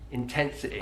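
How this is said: The final Y has the Mancunian I sound.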